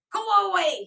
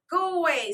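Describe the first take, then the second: First: Loud, high scream. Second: Loud, high tantrum scream. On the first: Boy screaming from the bed in a tantrum. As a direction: scream at everyone to leave. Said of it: "he screamed". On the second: Joel screaming again during his tantrum. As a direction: scream it while kicking. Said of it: "screamed Joel". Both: A narrator's reading.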